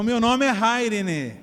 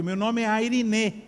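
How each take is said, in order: First: IRENE said as "HAI-ri-ni"; name with aspirated H. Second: IRENE said as "ai-ri-NÊ", slowly; no H, stress landing on the final Ê of IRENE; circumflex final E. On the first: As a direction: stress the first syllable of IRENE, with a breathed H. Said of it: "vou contar um segredo que poucos sabem". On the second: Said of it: "circunflexo no E". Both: Shown as a demonstration.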